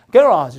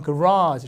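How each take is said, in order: First: Garage stressed on the first syllable, GA-razh; British front stress. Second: Garage stressed on the second syllable, guh-RAHZH; American back stress. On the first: Teacher showing how Britain says garage, front stress. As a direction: hit the start of garage loud. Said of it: "이렇게 강세 앞에 있어요". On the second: Teacher showing how Americans say garage, stress at the back. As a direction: say garage with a weak first syllable, long RAH. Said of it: "미국 사람들은 강세가 여기 줘요". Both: Shown as a demonstration.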